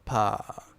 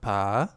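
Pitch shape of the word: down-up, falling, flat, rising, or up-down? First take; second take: falling; down-up. First: The pitch falls steadily downward. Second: The pitch dips down and then rises. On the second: "sugar daddy is down and up"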